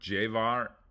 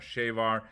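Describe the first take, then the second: First: The word starts with a soft J-like sound. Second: The word starts with a SH/CH-like sound. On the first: "In Colombia, it's more Jevar" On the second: "In Argentina, it's more Chevar"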